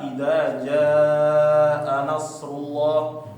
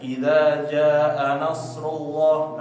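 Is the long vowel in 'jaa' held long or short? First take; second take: long; short. First: The vowel in 'jaa' is held long. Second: The vowel in 'jaa' is cut short.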